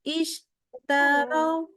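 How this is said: The sound stops briefly after the sh. The speaker calls it wrong. "Nah ini ada terputus di situ suara"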